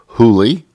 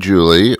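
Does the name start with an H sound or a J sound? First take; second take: H sound; J sound. First: The name starts with an H sound. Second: The name starts with a J sound.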